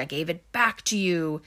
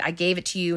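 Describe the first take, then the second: First: "back" leaned on in a retold retort; mock argument, "back" stressed and stretched. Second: Said in the usual way. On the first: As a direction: punch the word "back" to return the blame. Retold back-and-forth over map.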